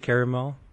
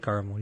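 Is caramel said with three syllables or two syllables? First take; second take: three; two. First: The word is said with three syllables. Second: The word is said with two syllables. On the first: "You say caramel?" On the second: "I say caramel"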